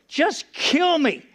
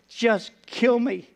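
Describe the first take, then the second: First: Higher, very slow, drawn-out plea; mild retold despair, raised and slowed; pleading cry. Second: Weary plea. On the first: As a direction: stretch it out, begging. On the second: Retold or imitated. Despairing plea to God.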